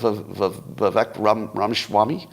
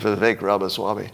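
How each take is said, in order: First: The name stumbles, breaking and restarting midway. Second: The name flows smoothly without any break. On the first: The speaker is unsure of the name. The speaker calls it wrong. "what's what's that" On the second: The speaker knows the name well. The speaker calls it right. "I think you mean"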